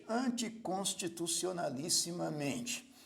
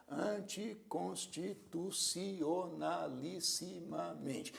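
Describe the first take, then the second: First: Said in the usual way. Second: Slow, softer "anticonstitucionalissimamente", each syllable evenly drawn out. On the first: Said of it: "uma palavra que contém muitas sílabas". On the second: Shown as a demonstration. Teacher sounding out a long word for counting, syllable by syllable. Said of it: "Vamos contar as sílabas dessa palavra".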